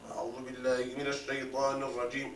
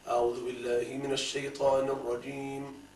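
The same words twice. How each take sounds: First: The voice sounds strained and choked. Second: The voice sounds open and relaxed.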